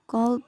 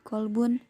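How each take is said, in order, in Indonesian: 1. Kata ini berakhir dengan dua konsonan, tanpa vokal akhir. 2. Kata ini berakhir dengan vokal tambahan dan n. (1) "Ini ketika diwakafkan" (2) "ketika tidak diwakafkan jadi kolbun"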